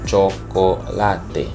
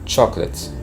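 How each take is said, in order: First: It is pronounced with Spanish vowel sounds. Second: It is pronounced with English vowel sounds. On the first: "but in Spanish we would say chocolate" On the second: "in English, we would say chocolate"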